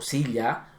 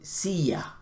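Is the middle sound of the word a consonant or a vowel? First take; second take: consonant; vowel. First: The middle sound is a consonant y sound. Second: The middle sound is a vowel i sound. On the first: "en vez de decir silla"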